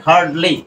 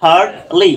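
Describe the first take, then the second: First: Said in the usual way. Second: "হার্ডলি" split as হার্ড, then লি, with open আ; deliberate "হার্ডলি" in two parts; sounded out. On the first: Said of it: "আ sound করছে". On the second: Shown as a demonstration. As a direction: stretch the আ in "হার্ডলি" and separate the লি. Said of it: "আ sound করবে".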